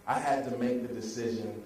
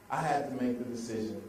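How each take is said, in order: Both takes have the same delivery.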